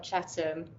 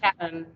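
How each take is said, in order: First: Said in the usual way. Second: "Chatham" said the local East End way; East End pronunciation. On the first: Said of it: "not Chatham". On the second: Shown as a demonstration. Professor demonstrates hometown slang, "Chatham" in East End pronunciation. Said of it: "it's just like East End".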